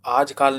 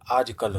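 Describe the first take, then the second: First: "आजकाल" with a long aa in the last syllable; wrong long vowel. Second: "आजकल" with a short a in the last syllable; correct short vowel. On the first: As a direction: stretch the end of "आजकाल" to "kaal". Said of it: "आजकाल नहीं होता है". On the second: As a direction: end "आजकल" on a short "kal". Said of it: "आजकल होता है". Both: Shown as a demonstration.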